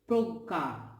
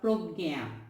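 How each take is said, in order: First: The g has no y glide after it. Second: The g is followed by a y glide. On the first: The speaker calls it right. "This is being pronounced as progga" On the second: The speaker calls it wrong. "this time this is not progya"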